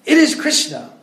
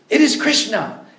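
First: "It is Krishna" even higher and louder, hammering is; climactic shout. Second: "It is Krishna" higher and louder, stress on is; forceful insistence. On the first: Prabhupada's last word to the student, forceful shout. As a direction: top it off, the final blow. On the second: Prabhupada corrects the student, forceful insistence. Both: Retold or imitated. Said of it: "speak with force".

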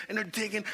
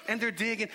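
No difference in how they are said.

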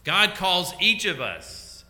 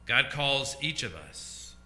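First: "God calls each of us" raised and louder, drawn out slowly; emphatic repeat. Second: Said in the usual way. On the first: Real, not acted. Preacher repeats key line to the congregation, emphatic. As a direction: lift and stretch "each of us" for emphasis.

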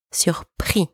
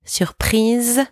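First: "surpris" in French, ending on "ee"; French masculine "surpris" with no z sound; silent final consonant. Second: "Surprise" in French, ending "-eez"; French feminine "Surprise" with audible final z; voiced final consonant. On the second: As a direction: sound the z at the end of "Surprise". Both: Shown as a demonstration. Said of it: "Do you hear the difference?".

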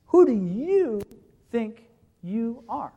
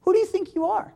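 First: "Who" pressed and falling, "are" slowed and dropped; slow, falling, pointed "Who do you think you are?"; stress on WHO. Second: "do" jumps up high in an outraged question; high, incredulous challenge rising on "do"; stress on DO. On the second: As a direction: fling "Who do you think you are?" up high with a sharp rise on "do". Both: Shown as a demonstration. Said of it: "literally, the emphasis is".

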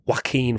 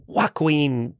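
First: Joaquin said as "wah-keen"; the corrected take, Joaquin as "wah-keen" with no k-w; getting Joaquin right at last; corrected name. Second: Joaquin said as "wah-kwin" with a hard k-w; the wrong try, Joaquin sounded out letter by letter; a clumsy attempt at the name Joaquin; mispronounced name. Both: Real, not acted. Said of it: "I can never say his goddamn name".

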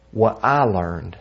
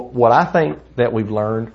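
First: "what I learned", slowed, with weight on "I"; stress on I. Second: Said in the usual way. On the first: Real, not acted. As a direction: correct yourself slowly, leaning on "I". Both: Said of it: "or I'll put it like this".

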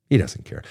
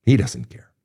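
First: Said in the usual way. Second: Whispered, for emphasis; hushed whisper driving the point home. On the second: Shown as a demonstration. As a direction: whisper it so it lands. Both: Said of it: "Did you hear me on that one?".

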